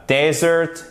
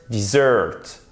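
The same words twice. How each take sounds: First: Desert as DEZ-ert, pitched high; desert with open E and early stress; stress on first syllable. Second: Dessert as dih-ZURT; dessert with short I and late stress; stress on second syllable. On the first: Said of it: "vous avez l'accentuation sur la première syllabe". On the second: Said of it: "Seconde syllabe". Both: Shown as a demonstration.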